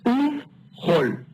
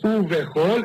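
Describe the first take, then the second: First: The v closes straight onto ch, no vowel. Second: A short vowel is heard between v and ch. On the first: The speaker calls it right. "es uvchol. Esta vav cierra esta consonante" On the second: The speaker calls it wrong. "No es uvechol"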